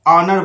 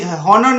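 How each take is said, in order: First: It starts with a vowel, no h. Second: It starts with an h sound. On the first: The speaker calls it right. "इसको ऑनर बोलना है" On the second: The speaker calls it wrong. "हॉनर नहीं बोलना है"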